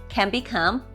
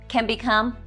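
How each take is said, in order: No difference in how they are said.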